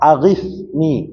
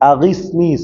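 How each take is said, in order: First: The consonant before 'ni' is a th sound. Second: The consonant before 'ni' is an s sound. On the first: The speaker calls it right. "இந்த நுனிநாக்கு வந்து மேல் பல்ல படணும்" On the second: The speaker calls it wrong. "சீன சொல்லிடாதீங்க"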